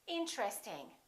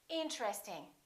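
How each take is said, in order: First: The word is said with three syllables. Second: The same.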